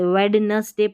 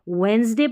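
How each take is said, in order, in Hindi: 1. बीच वाला d उच्चारित होता है। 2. बीच वाला d मौन है। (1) "वेडनसडे नहीं पढ़ना है" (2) "डी साइलेंट है"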